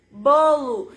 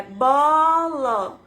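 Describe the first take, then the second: First: Said in the usual way. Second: "bola" stretched very slowly, syllable by syllable; syllables drawn apart. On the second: Shown as a demonstration. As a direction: sound out "bola" like a beginning reader. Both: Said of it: "Lê pra mim as duas sílabas junto".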